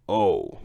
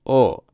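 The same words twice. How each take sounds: First: O sliding into "oh-oo"; wrong English O. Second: O as a pure, steady "oh"; Japanese O vowel. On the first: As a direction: round O off with a "w" glide. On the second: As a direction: hold O with no glide at the end. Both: Shown as a demonstration. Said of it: "not O".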